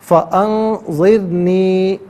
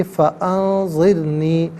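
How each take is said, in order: First: فانظرنی drawn out slowly in one piece; joined reading. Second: فانظرنی read slowly as one joined word. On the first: Teacher repeats the joined word for students. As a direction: read فانظرنی as one unit. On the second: Teacher shows joining the parts slowly. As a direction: glide فانظرنی together, no break. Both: Shown as a demonstration. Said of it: "ملا کر پڑھیں گے".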